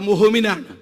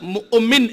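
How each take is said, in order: First: The middle consonant is an h sound. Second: The middle consonant is a glottal catch. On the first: The speaker calls it wrong. "അവിടെ മുഹ്മിനാണ്" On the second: The speaker calls it right. "സുഖമായി മാറ്റാൻ കഴിയുന്നത് മുഅ്മിൻ എന്നാണ്"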